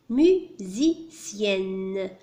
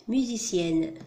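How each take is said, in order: First: "musicienne" very slowly, mu, si, cienne; syllable by syllable. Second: Said in the usual way. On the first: Shown as a demonstration. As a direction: break "musicienne" into three separate syllables. Teacher splits word into syllables.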